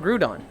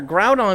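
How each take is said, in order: First: The first syllable rhymes with 'through'. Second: The first syllable sounds like 'ground'. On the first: The speaker calls it wrong. "I saw the O U and was thinking like through" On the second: The speaker calls it right. "one hundred percent the right way to say it"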